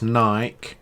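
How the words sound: It is said in a British way. The speaker calls it right. "it's Nike instead of Nike ... that's the proper way to say it"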